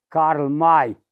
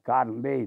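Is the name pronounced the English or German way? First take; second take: German; English. First: The name is pronounced the German way. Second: The name is pronounced the English way. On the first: "în pronunția germană" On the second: "dacă vrei să-l pronunți așa în engleză"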